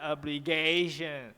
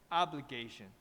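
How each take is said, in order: First: The pitch rises on the stressed syllable. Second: The pitch stays flat, then falls on the stressed syllable. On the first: The speaker calls it wrong. "Gation is like flying" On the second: The speaker calls it right. "It's like a flat and drop"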